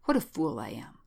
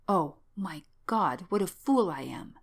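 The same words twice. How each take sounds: First: Lower-pitched, understated self-reproach. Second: Drawn-out, understated anguish; mounting self-reproach. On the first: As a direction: berate yourself in a lowered pitch. Shaken man berates himself, first take. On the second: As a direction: lament your own folly, stretching the exclamation. Self-reproach rising toward hysterics. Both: Acted.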